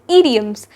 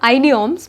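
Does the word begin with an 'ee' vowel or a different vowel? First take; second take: ee vowel; different vowel. First: The first vowel is an 'ee' sound. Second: The first vowel is not an 'ee' sound. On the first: The speaker calls it right. "The first I is pronounced as E, hence the correct pronunciation is idioms" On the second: The speaker calls it wrong. "nor idioms"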